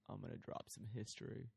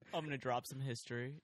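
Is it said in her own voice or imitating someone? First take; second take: imitating someone; own voice. First: It imitates her friend's way of talking. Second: It is said in her own voice.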